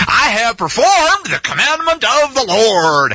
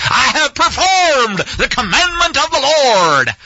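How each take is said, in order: First: Said in the usual way. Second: Slow, grandiose TV preacher, with a laugh; smug televangelist proclaiming his obedience. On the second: Retold or imitated. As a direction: ham up a pompous televangelist. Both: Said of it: "He sounds like a T V preacher".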